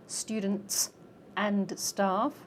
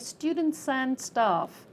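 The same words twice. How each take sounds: First: The words are said separately, not linked. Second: The final consonants link onto the next word. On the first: The speaker calls it wrong. "We don't say students and staff" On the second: The speaker calls it right. "we say students and staff"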